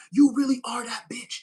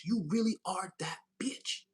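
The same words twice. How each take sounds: First: Louder, punchy sassy praise; loud sassy hype. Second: Slow, stretched sassy praise; slow drawn-out sass. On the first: Reader hyping up viewer, loud sassy praise. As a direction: shout the compliment with attitude. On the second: Reader praising viewer, slow drawn-out sass. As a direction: savor each word slowly. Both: Pretend. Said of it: "I don't even talk like that".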